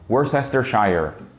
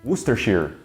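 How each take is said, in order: First: Every written syllable is pronounced. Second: Several written syllables are dropped. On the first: The speaker calls it wrong. "Completely wrong" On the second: The speaker calls it right. "o jeito certo mesmo de pronunciar isso aí é"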